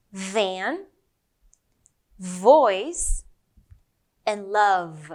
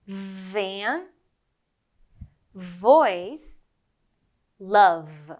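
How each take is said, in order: First: "Van", "voice", "love" spoken alone with a buzzing V; buzzing V words. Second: "Van", "voice", "love" again spoken alone with a buzzing V; buzzing V words. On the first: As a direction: let the V hum in each word. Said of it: "let's go with the V sound". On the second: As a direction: hum the V in every word. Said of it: "One more time". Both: Shown as a demonstration.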